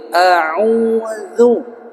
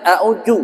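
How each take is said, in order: First: Tongue tip at teeth on dz of A'udzu; correct zal. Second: A'udzu said aju with a j sound; wrong jim. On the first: Teacher demonstrating correct zal in A'udzu. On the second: Teacher showing the wrong reading with jim. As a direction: dzal turned into j in a'udzu. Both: Shown as a demonstration.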